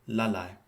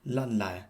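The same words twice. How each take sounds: Both takes have the same delivery.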